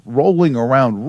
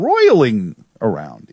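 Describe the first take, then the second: First: "rolling" said as ROH-ling, the ordinary rolling sound; slip to rolling. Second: "roiling" said with OY, ROY-ling, and slowed; slow down and land "roiling" with a clear OY; corrected to roiling. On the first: Host slips and says rolling before correcting himself, plainly. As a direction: say "rolling" like a ball rolling. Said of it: "roiling around in my head". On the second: Host corrects himself on air, slower and careful. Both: Real, not acted.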